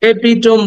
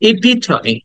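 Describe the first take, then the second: First: "এপিটম" as three syllables, e-pi-tom; common mispronunciation. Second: "ইপিটমি" as i-pi-tuh-mee, ending in ee; higher-pitched, four-syllable "ইপিটমি"; correct pronunciation. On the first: Teacher quoting what we say, mispronounced. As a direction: end "এপিটম" on a closed m. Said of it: "আসলে এপিটম না". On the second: Teacher showing the final ee sound, carefully pronounced. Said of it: "লাস্টে একটা ই sound আছে". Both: Shown as a demonstration.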